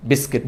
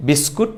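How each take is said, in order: First: "বিস্কিট" with i in both syllables, bis-kit; correct pronunciation. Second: "বিস্কুট" with a u in the second syllable, bis-koot; wrong pronunciation. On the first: Teacher corrects learners' biscuit, correct pronunciation. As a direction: say "বিস্কিট" ending on a short -kit. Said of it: "সঠিকটা হচ্ছে বিস্কিট". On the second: Teacher shows learners the common mistake, wrong pronunciation. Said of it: "ভুলটা হচ্ছে বিস্কুট". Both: Shown as a demonstration.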